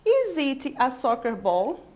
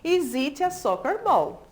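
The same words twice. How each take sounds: First: The voice rises at the end like a question. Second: The voice falls at the end like a statement. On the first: It sounds like a question. The speaker calls it wrong. "Eu falei agora na entonação da pergunta, ficou totalmente errado" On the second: It sounds like a statement. The speaker calls it right. "Aqui é uma frase afirmativa. Como é que a gente vai ler?"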